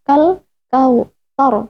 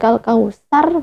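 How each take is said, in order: First: The consonant is a soft th sound. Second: The consonant is a plain s sound. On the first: The speaker calls it right. "kal kautsar bukan" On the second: The speaker calls it wrong. "bukan kal kausar"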